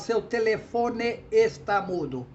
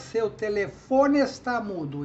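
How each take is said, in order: First: The ending of telefone and está are kept separate. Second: The ending of telefone merges with está. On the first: The speaker calls it wrong. "você não fala" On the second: The speaker calls it right. "Você fala"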